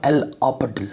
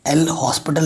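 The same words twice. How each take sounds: First: "हॉस्पिटल" pronounced the L'Hôpital way, like "ऑपिटल"; spoken pronunciation. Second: "हॉस्पिटल" read like the English word hospital; spelling pronunciation. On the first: Teacher showing students how it is spoken, "हॉस्पिटल" without H or S. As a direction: say "हॉस्पिटल" with silent H and S, as "opital". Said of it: "लेकिन बोलते हैं". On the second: Teacher showing students the written form, "हॉस्पिटल" pronounced as spelt. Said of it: "लिखते हैं लेकिन बोलते हैं". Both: Shown as a demonstration.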